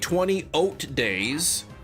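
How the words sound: The word eight sounds like 'oat'.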